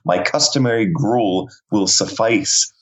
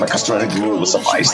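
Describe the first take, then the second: First: The words are said clearly and separately. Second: The words are run together without breaks.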